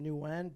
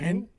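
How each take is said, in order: First: The surname is said in an anglicized way. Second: The surname is said in its native way. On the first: It is the easy version others can say. "I pronounce it Nguyen" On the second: It is how it is said in his language. "the correct pronunciation is"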